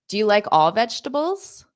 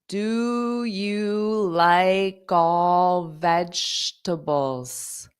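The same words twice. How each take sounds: First: The sentence is spoken quickly with words running together. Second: The sentence is spoken slowly with words kept apart. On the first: "I'll say it fast" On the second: "I'll say it slow"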